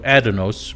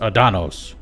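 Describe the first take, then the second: First: The stress is on the first syllable. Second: The stress is on the second syllable. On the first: This is the American way of saying it. The speaker calls it right. "in America, we like to enunciate the first one" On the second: This is the British way of saying it. The speaker calls it wrong. "the British always love to enunciate the second syllable"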